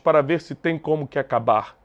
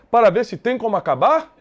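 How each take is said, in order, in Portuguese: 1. A voz cai no final. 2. A voz sobe no final.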